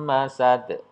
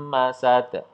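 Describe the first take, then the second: No difference in how they are said.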